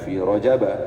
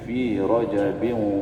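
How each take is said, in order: First: The word ends with a plain 'a' sound. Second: The word ends with an 'in' sound. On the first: The speaker calls it wrong. "bukan fi Rajaba" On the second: The speaker calls it right. "Rajab itu termasuk uh, is, is, apa, isim munsharif yang dibaca tanwin"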